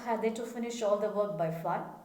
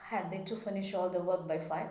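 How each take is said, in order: Both takes have the same delivery.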